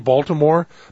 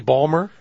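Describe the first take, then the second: First: The name is said in full, three syllables. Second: The name is shortened to two syllables. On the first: It is how an outsider says it. The speaker calls it wrong. "every time I'd say Baltimore, they'd correct me" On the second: It is how local people say it. The speaker calls it right. "I try to say Balmer"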